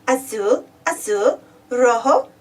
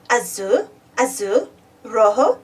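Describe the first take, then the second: No difference in how they are said.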